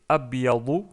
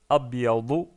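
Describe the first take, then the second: The two takes are said the same way.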